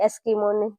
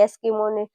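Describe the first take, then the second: The two takes are said the same way.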